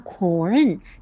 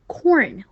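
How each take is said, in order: First: The pitch dips down and then rises. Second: The pitch falls sharply across the word. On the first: The speaker calls it wrong. "但是不要发corn，这样就是拐着弯的发" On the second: The speaker calls it right. "要四声发corn"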